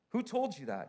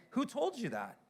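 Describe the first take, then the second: First: Said in the usual way. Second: Higher, mock-incredulous Who told you that; high incredulous question. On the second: Shown as a demonstration. Pastor challenging the congregation, high incredulous.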